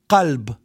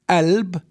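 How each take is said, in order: First: The word begins with a deep uvular q sound. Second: The word begins with a glottal stop sound. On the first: "So we have the word qalb" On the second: "In some areas, it's pronounced as alb"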